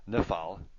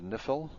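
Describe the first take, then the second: First: The second syllable has an ah vowel. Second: The second syllable does not have an ah vowel. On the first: The speaker calls it right. "it helps if you learn it properly. Nifal" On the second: The speaker calls it wrong. "I didn't learn them properly. So I said nifil"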